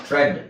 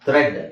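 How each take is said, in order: The two takes are said the same way.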